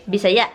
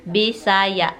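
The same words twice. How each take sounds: First: "Bisaya" in one quick burst; quick, short take of "Bisaya"; said quickly. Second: "Bisaya" slowly as Bi-sa-ya; careful, drawn-out teaching take of "Bisaya"; slow syllables. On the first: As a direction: run the syllables of "Bisaya" together fast. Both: Shown as a demonstration. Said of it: "if you say it quickly".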